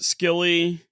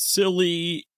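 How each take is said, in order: First: The word begins with an 'sk' sound. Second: The word begins with a plain 's' sound. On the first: This is how Americans say it. "America pronounce it Skilly" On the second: This is how people in England say it. "in England and Cornwall, it's silly"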